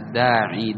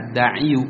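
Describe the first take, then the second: First: The word ends without a short u vowel. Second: The word ends with a short u vowel. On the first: The speaker calls it right. "tapi dibaca الداعي. Dhammahnya tidak bisa dibaca" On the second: The speaker calls it wrong. "tidak dibaca الداعي"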